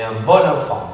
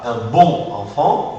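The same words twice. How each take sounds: First: "bon enfant" as "bo-nenfant", oral o linked by n; denasalised liaison. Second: "bon enfant" with bon fully nasal and kept apart, slow; wrong nasal bon. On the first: Teacher showing student the right liaison, "bo-nenfant". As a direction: drop the nasal and run "bon" into "enfant". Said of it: "mais un bon enfant". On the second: Teacher showing student the wrong way, nasal "bon". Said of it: "C'est pas un bon enfant". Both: Shown as a demonstration.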